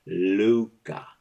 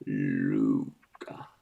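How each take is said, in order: First: Said in the usual way. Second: Very low booming call; deep voice. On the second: Pretend. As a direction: drop it way down low. Deep voice into fan.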